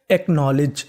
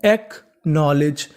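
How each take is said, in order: First: Said in the usual way. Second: "acknowledge" slowly split after the first syllable; slow, divided teaching take of "acknowledge"; broken into parts. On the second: Shown as a demonstration. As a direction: sound out "acknowledge" with a gap inside it. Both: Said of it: "तो पूरी meaning बनी".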